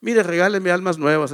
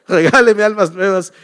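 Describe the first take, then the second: First: Said in the usual way. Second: "Regáleme" said louder with a laugh, a fond insistence; laughing emphasis. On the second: Retold or imitated. Pastor answers the members who ask what gift he wants, laughing and insistent. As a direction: repeat "Regáleme almas nuevas" louder, laughing.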